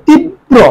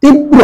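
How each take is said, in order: First: তীব্র split as "tib... bro", higher pitched; careful model pronunciation. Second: Said in the usual way. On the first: Shown as a demonstration. Teacher shows the pronunciation, তীব্র as "tib-bro". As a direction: double the b in তীব্র, with a tiny break. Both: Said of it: "উচ্চারণ করি তীব্র".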